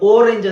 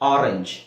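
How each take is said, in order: First: The first vowel sounds like 'oh'. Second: The first vowel sounds like 'ah'. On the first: The speaker calls it wrong. "ನಾವು ಓರೆಂಜ್ ಅಂತ ಹೇಳ್ತೀವ ಇಲ್ಲ" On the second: The speaker calls it right. "ಆ ಆರೆಂಜ್"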